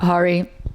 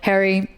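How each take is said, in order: First: It sounds different from the male name Harry. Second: It sounds like the male first name Harry. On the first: The speaker calls it wrong. "not Hari" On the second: The speaker calls it right. "say it like the male first name"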